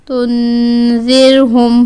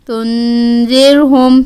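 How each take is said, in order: No difference in how they are said.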